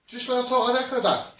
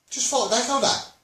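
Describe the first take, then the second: No difference in how they are said.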